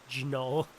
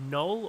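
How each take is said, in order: First: The word starts with a hard G sound. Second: The word starts with an N sound. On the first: "or is it like a hard G?" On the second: "am I saying that right?"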